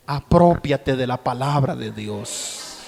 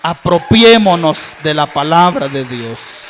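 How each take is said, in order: First: Said in the usual way. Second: Louder call to the congregation; rising fervor; louder exhortation. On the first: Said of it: "repeated as exhortation". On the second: Acted. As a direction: press the call home, stronger. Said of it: "repeated louder".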